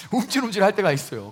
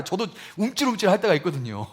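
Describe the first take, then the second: First: 움찔움찔 said with a chuckle; laughing admission. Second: Said in the usual way. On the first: Real, not acted. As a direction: admit it with a laugh.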